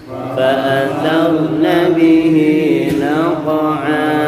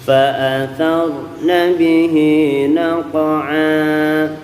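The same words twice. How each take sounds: The two takes are said the same way.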